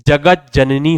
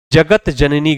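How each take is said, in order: First: जगत जननी with t turned to j, "jagaj-janani"; correct pronunciation. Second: जगत जननी as two words, slowly, with a clear t ending "jagat"; wrong pronunciation. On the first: Teacher giving students the right जगत जननी, correctly pronounced. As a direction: merge जगत जननी on a doubled j. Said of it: "जगत जननी होगा". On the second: Teacher reading the faulty जगत जननी, mispronounced with t. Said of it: "गलत है". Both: Shown as a demonstration.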